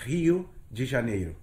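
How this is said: The name is said with a Portuguese pronunciation. "In Portuguese, you know, we pronounce it Rio de Janeiro"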